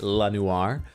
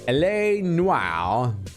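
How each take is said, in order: First: The first part is said as one syllable. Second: The first part is said as two letters. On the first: The speaker calls it wrong. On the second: The speaker calls it right.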